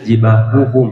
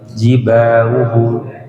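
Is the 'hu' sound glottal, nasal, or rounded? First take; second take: rounded; glottal. First: The h vowel is fully rounded with pushed lips. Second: The h becomes a glottal catch instead. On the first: The speaker calls it right. "maka mondong sempurna kalau dhammah ya" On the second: The speaker calls it wrong. "hati-hati hanya jadi hamzah"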